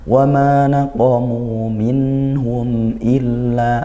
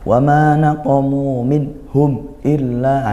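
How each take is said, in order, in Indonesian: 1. Bunyi n dan m mengalir dengan sedikit dengung sengau. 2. Bunyi n dan m terputus tiba-tiba. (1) "masih ada alirannya sedikit karena nun dan mim itu ada gunnahnya" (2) "jangan sampai bacanya seperti ini ... ini dihentak ya. Nah, kurang izhar, kurang dijelaskan"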